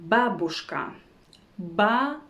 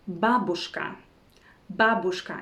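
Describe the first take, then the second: No difference in how they are said.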